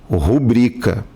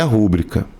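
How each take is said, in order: First: The stress is on the second syllable. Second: The stress is on the first syllable. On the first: The speaker calls it right. "Certo é rubrica" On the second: The speaker calls it wrong. "como se tivesse até um acento ali que não existe"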